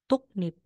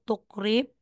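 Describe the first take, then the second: First: The middle consonants sound like k followed by n. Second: The middle consonants sound like k followed by r. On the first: "magiging tuknip"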